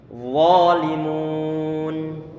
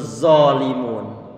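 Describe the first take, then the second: First: The word starts with a flowing th sound. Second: The word starts with a thick z sound. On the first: The speaker calls it right. "Yang benar adalah adalah walimun" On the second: The speaker calls it wrong. "yang muncul zalimun. Huruf zai yang diucapkan dengan model tebal"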